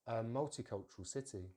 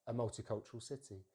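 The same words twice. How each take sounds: The two takes are said the same way.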